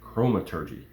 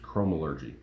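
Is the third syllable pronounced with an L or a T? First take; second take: T; L. First: The third syllable starts with a T sound. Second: The third syllable starts with an L sound. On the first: The speaker calls it right. "but it's chromaturgy" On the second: The speaker calls it wrong. "I've always thought it was chromalurgy"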